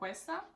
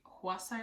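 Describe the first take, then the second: First: The first syllable sounds like 'hwe'. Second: The first syllable sounds like 'hwa'. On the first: The speaker calls it right. "instead of huesa" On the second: The speaker calls it wrong. "I still say huasa"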